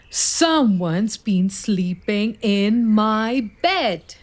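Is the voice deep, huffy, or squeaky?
deep. It is said in a deep, rumbling voice.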